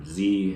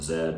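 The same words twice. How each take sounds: First: The letter is said as American zee. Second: The letter is said as zed.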